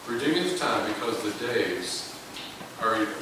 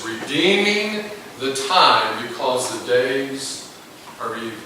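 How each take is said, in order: First: Said in the usual way. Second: Slow, weighty King James reading; slow scripture read. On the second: Shown as a demonstration. Preacher reads the verse slowly and weightily. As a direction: draw out Redeeming. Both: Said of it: "It says".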